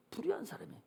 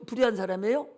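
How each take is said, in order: First: 불의한 사람이에요 as a hushed statement; answering. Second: 불의한 사람이에요 as a question, rising at the end. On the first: Preacher answers his own question, 불의한 사람이에요 said softly as a statement. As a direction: drop the volume on 불의한 사람이에요, answering yourself. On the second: Preacher asks the congregation about the unfaithful husband, 불의한 사람이에요 said questioning. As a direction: ask 불의한 사람이에요 with a lifted ending. Asking, then answering himself. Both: Shown as a demonstration.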